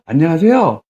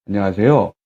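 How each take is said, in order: First: Raised-tone greeting. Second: 안녕하세요 pitched low; low-toned, restrained phone greeting; matching low tone. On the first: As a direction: greet with 안녕하세요 in a lifted tone. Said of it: "이렇게 올라가는 거죠". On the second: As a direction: mirror a low-voiced answerer with a lowered 안녕하세요. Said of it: "나도 같이 낮춰주는 거예요". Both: Shown as a demonstration.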